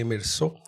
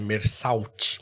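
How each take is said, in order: First: The name is pronounced the French way. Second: The name is read the Portuguese way.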